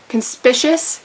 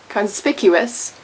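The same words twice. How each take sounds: First: The second c is a soft 'sh' sound. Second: The second c is a hard 'k' sound. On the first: The speaker calls it wrong. "not conspicuous, even though it's spelled like suspicious and delicious" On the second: The speaker calls it right. "You do pronounce the C as a hard C"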